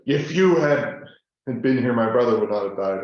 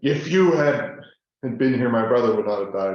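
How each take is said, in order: First: It sounds accusing and reproachful. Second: The same.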